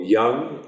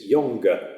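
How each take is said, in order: First: The word ends without an extra final vowel. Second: The word ends with an extra final vowel.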